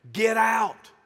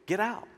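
First: Loud, forceful "Get out"; acted commanding yell; shouted order. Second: Said in the usual way. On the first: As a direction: shout them out of the room. Jesus throwing the scoffers out.

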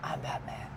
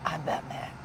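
First: Much lower, softer Batman line. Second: Low gravelly-free Batman growl, lightly done; a hint of Batman. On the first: Retold or imitated. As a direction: drop the voice low like Batman. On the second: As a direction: quietly imitate Batman's low line. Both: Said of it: "That was pretty good".

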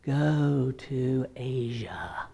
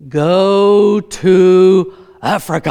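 First: Slow, eerie drawn-out whisper; whispered fake God. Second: Loud, drawn-out mock voice of God; booming divine voice. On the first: Bible school prankster whispering from a closet as God, slow whisper. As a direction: whisper it spookily, pretending to be God. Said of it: "hiding in their closets and speaking". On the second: Pretend God answering a prayer for direction, booming and slow. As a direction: boom it out very slowly like a command from heaven.

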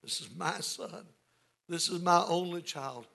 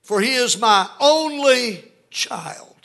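First: Lightly voiced father, softly pleading; a hushed hint of a father's appeal. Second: High, loud, stretched cry of a father; pleading father. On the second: Acted. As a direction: cry it out slowly as a desperate father. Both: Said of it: "You hear that in the father's voice".

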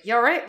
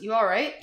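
First: Said in the usual way. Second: Rising, concerned question; concerned check-in. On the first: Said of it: "it's just standard". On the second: Shown as a demonstration. American asking a friend if something's wrong, concerned. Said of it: "usually means, like, something's wrong".

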